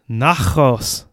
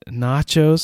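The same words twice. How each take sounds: First: The middle consonant is a throaty kh sound. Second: The middle consonant is an English ch sound. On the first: The speaker calls it wrong. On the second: The speaker calls it right.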